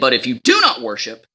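It is said in a harsh, threatening tone. A severe punishment is being threatened. "he changes his tone again"

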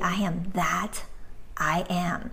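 There is a pause after "that". It is two separate statements. The speaker calls it right. "the comma between the word "that" and "I.""

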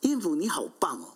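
The praise sounds sincere and warm.

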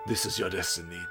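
It is read in an altered character voice.

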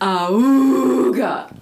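It is said in a gravelly voice.

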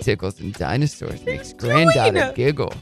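It is said in a sinister, creepy voice.

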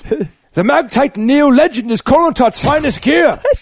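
It is said loudly in a put-on accent.

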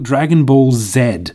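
The letter Z is said the Japanese way. "in Japan, they actually call it"

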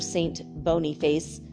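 The name is said with English pronunciation. "in English, if you're going to say it in a stupid way"

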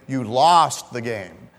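The stress falls on the word 'lost'. The listener's bad actions are the focus. "there's an emphasis on your bad actions"

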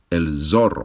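The z is a buzzing voiced z sound. This is how American speakers say it. The speaker calls it wrong. "ellos dicen el zorro. Z, pero el sonido Z no existe en español"

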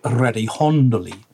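It is said Tuscan-style, the c softened to h.

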